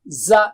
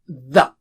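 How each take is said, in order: First: It starts with a buzzing z sound. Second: It starts with a soft th sound. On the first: The speaker calls it wrong. "don't say it as za" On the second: The speaker calls it right. "Za is not same as the"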